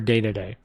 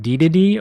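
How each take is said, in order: First: Each syllable has an 'ay' vowel, like 'day'. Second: Each syllable has an 'ee' vowel, like 'dee'. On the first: "or Day to Day?" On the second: "Is it D to D"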